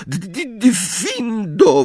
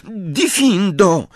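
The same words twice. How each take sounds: First: Shaken stutter, then high drawn-out cry; stammered spell. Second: High, drawn-out incantation; cried spell. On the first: Trembling girl cutting her friend's ropes, stammering. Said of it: "wyjąkała". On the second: Girl retrying the spell after apologising, crying it out high. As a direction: cry the spell in one unbroken, stretched word. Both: A narrator's reading.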